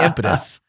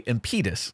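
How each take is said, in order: First: The stress is on the first syllable. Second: The stress is on the middle syllable. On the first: "that is still the first syllable" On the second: "I've never heard it before with the middle syllable stressed"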